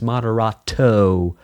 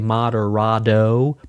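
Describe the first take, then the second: First: The t is pronounced as a clear t. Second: The t sounds like a soft d. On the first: "but it's Moderato" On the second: "I'm East Coast, so I say Moderato; that East Coast thing where we turn our T's into D's"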